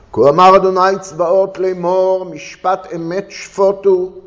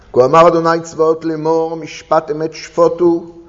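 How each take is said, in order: Both takes have the same delivery.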